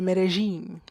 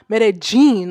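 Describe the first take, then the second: First: The 'll' is said as a soft j. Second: The 'll' is said as a hard j. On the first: The speaker calls it right. "that little j" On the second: The speaker calls it wrong. "it's not a hard j"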